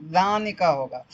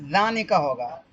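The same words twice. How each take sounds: First: ذانک ہوگا slow with a settled falling tune; firm answer. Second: ذانک ہوگا with a rising, questioning tune; tentative answer. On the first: Teacher confirming the answer to the class, slow and falling. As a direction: confirm ذانک ہوگا slowly, pitch dropping at the end. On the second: Teacher to class, trying out the answer, rising and questioning. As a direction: offer ذانک ہوگا as a guess, pitch going up at the end. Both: Shown as a demonstration. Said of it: "تو کون سا ہوگا؟".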